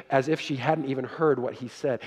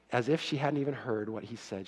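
First: Said in the usual way. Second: Quiet repeat. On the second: Shown as a demonstration. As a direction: repeat the phrase softer, sinking.

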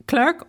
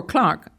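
First: Clerk said to rhyme with "work"; alternative pronunciation. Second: Clark said to rhyme with "park"; alternative pronunciation. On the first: Offering listeners either surname pronunciation, Clerk with an "ur" vowel. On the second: Offering listeners either surname pronunciation, Clark with an "ar" vowel. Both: Shown as a demonstration. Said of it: "whichever you like".

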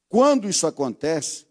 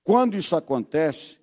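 No difference in how they are said.

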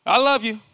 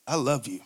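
First: A sincere, tender I love you; mean it kindly. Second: Low, soft, cold I love you. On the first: Husband telling wife he loves her, sincere and tender. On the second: Husband telling wife he loves her, grudging and cold. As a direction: say it flat and grudging, much lower. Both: Shown as a demonstration. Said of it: "It's the difference between".

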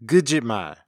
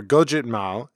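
First: "gujitmal" with a short first vowel, not o; Jala pronunciation. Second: Said in the usual way. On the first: Shown as a demonstration. Showing the Jala word for liar, Jala pronunciation. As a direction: say "gujitmal", starting goo rather than go. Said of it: "often pronounced by Jala speakers as". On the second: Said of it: "is often pronounced by Jala speakers".

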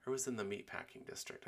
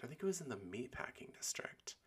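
First: Said in the usual way. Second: Whispered to herself; whispering. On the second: Real, not acted. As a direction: whisper it like a private aside. Answers herself under her breath.

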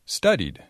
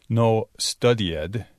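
First: "studied" ending in a plain d; right way: "studied" said smoothly. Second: Slow "studied" with a separate e-d syllable; wrong way: "studied" as stu-di-ed. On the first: ("studied" bien pronunciado, terminando en d) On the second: ("studied" mal pronunciado, con la "ed" separada) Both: Shown as a demonstration.

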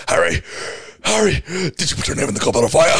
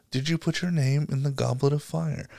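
First: Rushed, frantic, breathless demand; Dumbledore. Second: Soft, calm question; Dumbledore. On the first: Mimicking the movie's aggressive version, frantic demand. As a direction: fire the question off fast and urgently. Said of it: "fucking running down the stairs". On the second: Reading the book's version to friends, calm question. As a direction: ask it gently and quietly, unhurried. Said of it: "Dumbledore calmly asks Harry". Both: Retold or imitated.

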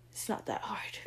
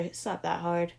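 First: "It's not that hard" whispered, much softer. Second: Said in the usual way. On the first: Real, not acted. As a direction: breathe "It's not that hard" under the breath.

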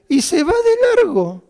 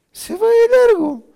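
First: Much higher and louder, laughing through it. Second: Even higher, loud, laughing through it. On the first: Repeating the punchline to listeners, laughing hard. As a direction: squeeze the words out through laughter. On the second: Repeating it again to listeners, laughing hard. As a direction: push it out between laughs. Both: Real, not acted.

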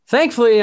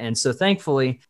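First: "thankfully" punched much higher and louder, falling at the end; emphatic thankfully. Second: Said in the usual way. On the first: Real, not acted. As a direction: hit "thankfully" hard with relief.

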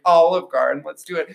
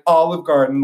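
First: Playful, higher; mock-eager suggestion; joking suggestion. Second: Playful, higher and louder; mock-eager pitch; joking suggestion. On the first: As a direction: pitch it as a joke. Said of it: "I was like". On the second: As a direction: toss it out as a joke. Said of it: "like, as a joke".

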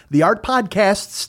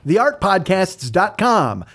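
First: Slow, with the final S in Podcasts clearly hit; stress on Podcasts. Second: Said in the usual way. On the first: Shown as a demonstration. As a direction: lean on the word Podcasts so the S is heard. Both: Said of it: "there's an S in there".

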